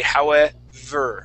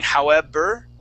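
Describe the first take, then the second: First: The middle consonant is a buzzing V sound. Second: The middle consonant is a soft B sound. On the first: The speaker calls it right. "like you're pronouncing an F" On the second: The speaker calls it wrong. "You're using a small B sound"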